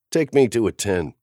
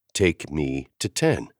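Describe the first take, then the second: First: Said in the usual way. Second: Terse insistence. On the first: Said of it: "I told Waylay". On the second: A narrator's reading. Lucian insisting to the kid, tersely and slowly. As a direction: insist flatly, each word measured. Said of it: "I insisted tersely".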